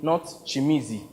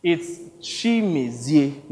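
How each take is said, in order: First: "Chimizi" clipped to chee-MEE-zee; wrong pronunciation. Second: "Chimezie" slowly as shee-MEH-zee-eh; right pronunciation. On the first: Victor mimicking the director's mangled name, softer. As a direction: say "Chimizi" the squashed American way. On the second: Victor correcting the director's pronunciation of his name, slow. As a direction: stretch out "Chimezie" in four syllables. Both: Shown as a demonstration. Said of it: "correcting him on how to pronounce my name".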